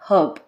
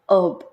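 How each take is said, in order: First: The h at the start is pronounced. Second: The h at the start is silent. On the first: "in British English, H is pronounced" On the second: "H is silent here in American English"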